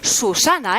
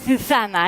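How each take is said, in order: First: The first consonant is a plain hissing s. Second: The first consonant is a lisped th sound. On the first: "on a dit Susana" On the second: "Ça, c'est la Z"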